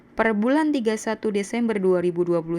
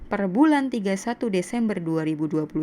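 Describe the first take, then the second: No difference in how they are said.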